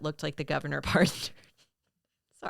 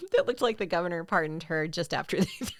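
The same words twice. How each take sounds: First: Real laugh breaking up the line; breaking into laughter. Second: Second attempt, fighting to keep the laugh down; mostly steady, giggle threatening at the end; holding back laughter. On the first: Co-host reading out a joke about a perm, cracking up. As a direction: try to get it out, laughter taking over at the end. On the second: Co-host retrying the joke line, holding back laughter. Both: Real, not acted. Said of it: "couldn't get through it without laughing".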